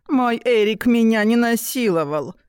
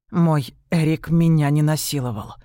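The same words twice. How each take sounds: First: High squeaky mocking mimicry; писклявое передразнивание. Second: Said in the usual way. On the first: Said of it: "передразнил писклявым голосом". (писклявым голосом, передразнивая)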